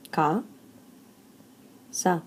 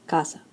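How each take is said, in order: First: "Ca, sa" split into two syllables with a long pause. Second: Said in the usual way. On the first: Shown as a demonstration. Teacher breaking the word casa into two syllables, syllable by syllable. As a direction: say "Ca", pause, then "sa" on its own. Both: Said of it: "So casa has two syllables".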